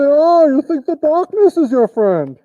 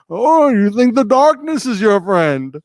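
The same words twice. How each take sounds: First: A put-on voice muffled through a mask. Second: An unmuffled put-on deep voice. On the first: "it goes on like this, and you can say" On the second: "I'll talk in the Bane voice"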